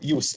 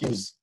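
First: The word ends with a soft s sound. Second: The word ends with a buzzing z sound. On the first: The word is a noun. The speaker calls it right. "Use here is a noun" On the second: The word is a verb. The speaker calls it wrong. "It's not a verb"

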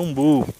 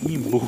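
First: The word begins with an 'oo' vowel. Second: The word begins with an 'ee' vowel. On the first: This is the standard name. "o nome certo é umbu" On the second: This is how the speaker actually says it. "mas eu falo é imbu mesmo"

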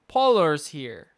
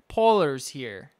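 The two takes are said the same way.

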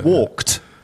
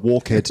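First: The ending is a plain t sound. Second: The ending is an extra syllable, like 'head'. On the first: The speaker calls it right. "but it's walked down the street" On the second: The speaker calls it wrong. "you're going to think it's walkhead because it's ed at the end"

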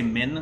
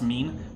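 First: The vowel is short, like 'min'. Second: The vowel is long, like 'mean'. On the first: The speaker calls it wrong. "They always say min" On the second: The speaker calls it right. "they always mispronounce mean"

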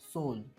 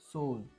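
The two takes are said the same way.

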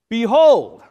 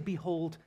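First: The word is said in a strong, forceful voice. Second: The word is said in a small, weak voice. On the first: The speaker calls it right. "It's a call to attention" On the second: The speaker calls it wrong. "in a little wimpy voice"

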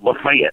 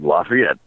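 First: It is said the local North Georgia way. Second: It is said the common, French-based way. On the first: This is how the local town says the name. "They call it Lafayette" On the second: This is how most places say the name. "most places you go, like Louisiana and Illinois, or Indiana, rather, you have a city called Lafayette. And it's like Lafayette"

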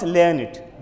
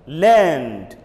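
First: The word ends with an extra 'id' syllable. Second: The word ends with a plain 'd' sound. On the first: The speaker calls it wrong. "not learn it" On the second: The speaker calls it right. "Say learned"

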